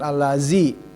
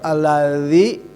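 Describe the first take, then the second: First: The middle consonant is a plain z sound. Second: The middle consonant is 'th' as in 'this'. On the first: The speaker calls it wrong. "bukan allazi" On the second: The speaker calls it right. "sama setiap alladzi ingat ya"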